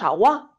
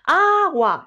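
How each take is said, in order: First: The stress is on the last syllable. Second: The stress is on the first syllable. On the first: The speaker calls it wrong. "no decimos agua, ¿verdad que no?" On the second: The speaker calls it right. "Decimos agua. La sílaba tónica es A"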